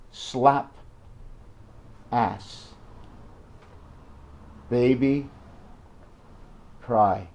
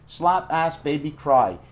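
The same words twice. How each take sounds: First: Put-on slap, ass, baby, cry, each word alone with long pauses; "slap ... ass ... baby ... cry" with a long gap after every word; spaced out. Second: Put-on "Slap ass, baby, cry" in one quick breath with no pauses; short form. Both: Shown as a demonstration. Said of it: "Keep it in short form".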